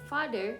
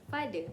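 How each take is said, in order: First: The final R sound is pronounced. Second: The final R sound is dropped.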